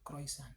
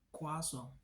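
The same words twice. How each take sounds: First: The word is pronounced a non-French way. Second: The word is pronounced the French way. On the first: The speaker calls it wrong. "bukan croissant" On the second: The speaker calls it right. "ucapkan kata tersebut dengan kaidah pelafalan berbahasa Prancis"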